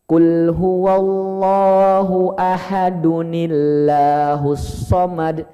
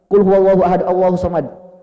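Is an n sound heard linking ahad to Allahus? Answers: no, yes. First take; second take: yes; no. First: Ahad links to Allahus through an added -un- sound. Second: Ahad runs into Allahus with no added n. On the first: The speaker calls it right. "cara baca yang tepat ... disambung dengan ayat kedua kayak gini" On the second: The speaker calls it wrong. "Jadi bukan gini ... kalau di tarawih cepat"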